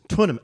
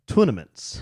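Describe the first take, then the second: First: It is said in a standard accent. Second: It is said in a Georgia accent.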